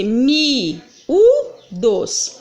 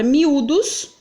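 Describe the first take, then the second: First: "mi, u, dos" said slowly as three separate syllables with a pause before "dos"; syllables split. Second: Said in the usual way. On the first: Shown as a demonstration. Teacher splitting "mi, u, dos" into syllables for the class. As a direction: break "mi, u, dos" into three slow beats. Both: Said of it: "Quando eu vou separar as sílabas".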